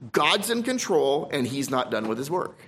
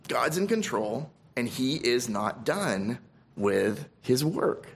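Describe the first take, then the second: First: Said in the usual way. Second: Softer, slower, lingering on each word; quiet and slow. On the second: Acted. Preacher repeats the assurance to his flock, quiet and slow. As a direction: let it sink in gently, drawn out. Repeats the line more softly.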